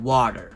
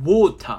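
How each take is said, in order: First: It is said with an American accent. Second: It is said with a British accent.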